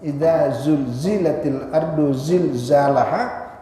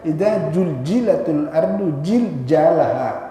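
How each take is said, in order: First: The repeated consonant is a z sound. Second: The repeated consonant is a j sound. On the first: The speaker calls it right. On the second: The speaker calls it wrong.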